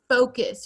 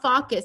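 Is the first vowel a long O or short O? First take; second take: long O; short O. First: The first vowel is a long O sound. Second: The first vowel is a short O sound. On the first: The speaker calls it right. "it's gonna say the long O sound" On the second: The speaker calls it wrong. "It's not focus"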